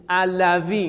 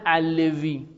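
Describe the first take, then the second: First: The vowel before the w is an 'a'. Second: The vowel before the w is an 'i'. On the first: The speaker calls it right. "فقط دقت کنید علوی نه علوی" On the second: The speaker calls it wrong. "به جهت عدم تناسب کسره با واو"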